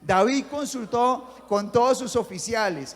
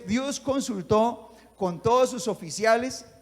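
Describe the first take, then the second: First: It is read with more attitude and energy. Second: It is read with little energy.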